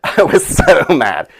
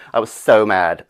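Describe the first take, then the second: First: Slow, laughing through the words; giggling repeat. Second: Said in the usual way. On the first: Real, not acted. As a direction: crack up while saying it.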